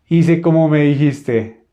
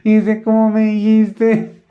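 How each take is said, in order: First: The voice is strong and deep. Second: The voice is thin and light. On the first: Imitating the brother's voice. "así hablaba Esaú, ¿no? Como fuerte, grueso" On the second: His own natural voice. "Era una voz delgadita"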